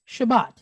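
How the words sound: It is said in a Sephardic accent, ending in -at.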